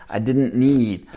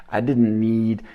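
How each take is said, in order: No difference in how they are said.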